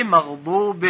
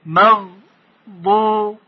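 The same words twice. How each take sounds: First: Said in the usual way. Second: «مغضوب» very slowly as مغ، ضو، بِ with pauses; higher, three separate parts in «مغضوب»; syllable by syllable. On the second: Shown as a demonstration. Teacher modelling a prayer word, «مغضوب» syllable by syllable.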